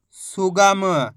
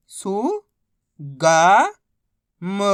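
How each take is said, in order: First: सुगम joined but stretched slowly; blended word. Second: सु, गा, म held apart; syllable by syllable. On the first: Teacher modelling reading, सुगम said slowly whole. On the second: Teacher modelling reading, सु, गा, म sounded out separately. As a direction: sound out सु... गा... म, louder on गा. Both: Shown as a demonstration. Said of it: "बस इसी तरीके से".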